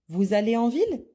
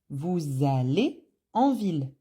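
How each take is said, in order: First: The voice rises at the end. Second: The voice falls at the end. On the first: It is a question. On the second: It is a statement.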